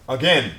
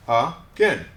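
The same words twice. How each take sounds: First: Said in the usual way. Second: Again split as uh - gen; syllable by syllable. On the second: Shown as a demonstration. Teacher breaks the word up for students, Again in two separate syllables. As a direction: leave a gap inside Again. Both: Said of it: "break them up into syllables".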